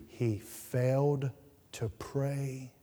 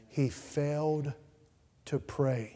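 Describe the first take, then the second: First: Slow, weighty stress on failed; failed hammered home slowly; stressed repetition. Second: Slow, quieter, stress moved to He; He leaned on, the rest trailing off; softer echo. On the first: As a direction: lean hard into failed, then let pray drop. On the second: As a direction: echo the point gently, hitting He. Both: Acted. Repeated sermon point.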